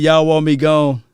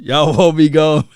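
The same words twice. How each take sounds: First: It is said in a plain natural voice. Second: It is said in a nasal put-on voice. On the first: "I can't use his voice all day" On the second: "in his voice, ... It's a nasally voice"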